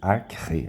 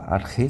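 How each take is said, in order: First: A k and a raspy r come together. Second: Only a raspy r sound is in the middle. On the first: "Seria um K e um R ao mesmo tempo" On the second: "pode falar Arre, que também está certo"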